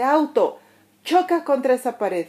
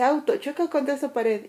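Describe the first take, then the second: First: Higher, louder angry order to the car; mock angry command. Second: Said in the usual way. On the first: Angry stranger ordering the parked car to crash, higher and louder. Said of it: "llega alguien enojado y le dice".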